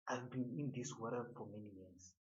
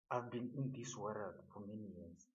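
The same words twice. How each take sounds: The two takes are said the same way.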